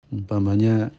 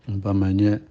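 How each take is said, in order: The two takes are said the same way.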